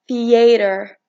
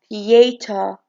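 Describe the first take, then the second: First: It is said with an American accent. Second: It is said with a British accent. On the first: "in American" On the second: "in British"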